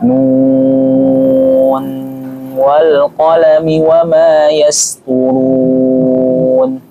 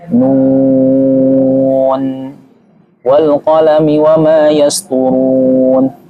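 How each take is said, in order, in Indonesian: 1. 'Nun' tersambung terus dengan n akhir yang jelas. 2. Ada jeda setelah kata 'nun'. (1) "Yang wasal" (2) "Ini waqaf"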